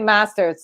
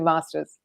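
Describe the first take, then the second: First: It has an American vowel sound. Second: It has a British vowel sound. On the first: The speaker calls it wrong. "I can't say masters. Like I can't" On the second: The speaker calls it right. "It's got to be masters"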